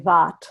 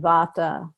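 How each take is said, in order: First: The word ends on a consonant, no final vowel. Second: The word ends with a short final vowel sound. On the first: This is how Hindi speakers often say it. The speaker calls it wrong. "they will say Vat and Pit" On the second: This keeps the Sanskrit ending. The speaker calls it right. "there's always that uh sound at the end"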